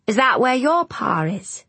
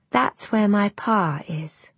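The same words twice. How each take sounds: First: Put-on higher-pitched boy's question; curious boy. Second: Slow, tentative near-whisper; uncertain. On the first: Boy asks the girl about the shore, curiously. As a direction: ask like an inquisitive lad. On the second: Little girl alone repeats the idea, uncertainly. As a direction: try it out slowly, half to yourself. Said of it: "she said uncertainly". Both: A narrator's reading.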